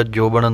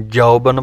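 First: ਜੋਬਨ with a plain "o" vowel; wrong pronunciation. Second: ਜੌਬਨ with an open "au" vowel; correct pronunciation. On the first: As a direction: say ਜੋਬਨ as jobən, the mistaken way. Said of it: "ਨਹੀਂ ਬੋਲਣਾ". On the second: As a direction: say ਜੌਬਨ as jaubən, not jobən. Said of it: "ਜੋਬਨ ਨਹੀਂ ਬੋਲਣਾ". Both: Shown as a demonstration.

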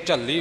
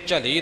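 First: ਝੱਲੀ with the l held long and doubled; a firm ਝੱਲੀ with a clearly held double l. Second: ਝਲੀ with a short, single l and no doubling; a light ਝਲੀ where the l is not doubled; wrong single l. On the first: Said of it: "ਇੱਥੇ ਝੱਲੀ ਬੋਲਣਾ ਹੈ". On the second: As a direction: say ਝਲੀ lightly, with no held consonant. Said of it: "ਇੱਥੇ ਝਲੀ ਨਹੀਂ ਬੋਲਣਾ". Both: Shown as a demonstration.

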